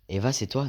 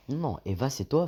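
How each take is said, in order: First: Said in the usual way. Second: Mock shock, pitch swooping higher; hammed-up disbelief in a higher voice; acting shocked. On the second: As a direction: play the stunned guy. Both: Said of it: "fais le mec choqué".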